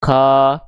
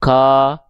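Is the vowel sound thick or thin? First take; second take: thick; thick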